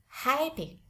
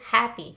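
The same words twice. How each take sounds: First: The first vowel glides like a diphthong. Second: The first vowel is a pure short vowel. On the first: "kalau yang di American English dia itu seperti diphthong" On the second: "Kalau di British English ini benar-benar true short vowel"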